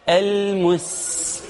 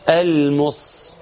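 First: المس with a light, long hissed "s"; thin sin. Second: المس as dark "al-moss"; heavy sad error. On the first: Teacher restores the original letter, المس with light sin. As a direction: hold a thin clear s in المس, slowly. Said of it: "وخليه سين مرققة". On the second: Teacher imitates the wrong letter, المس with heavy s. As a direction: thicken the final s of المس into sad. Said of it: "وحط الصاد". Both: Shown as a demonstration.

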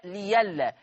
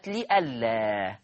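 First: ليلا with a y for the glottal stop; ya replacing hamza. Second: لئلا with the glottal stop sounded; hamza in لئلا. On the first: Teacher showing the substitution, hamza turned to ya in ليلا. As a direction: glide through the ya in ليلا. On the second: Teacher introducing the first word, hamza kept in لئلا. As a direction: keep the hamza clear in لئلا. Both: Shown as a demonstration. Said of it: "هتبدل ياء".

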